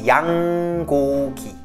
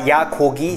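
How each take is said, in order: First: The first syllable ends with a clear ng sound. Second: The first syllable ends without an ng sound. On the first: The speaker calls it right. "bien prononcer le on en bas" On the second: The speaker calls it wrong. "C'est pas yagogi"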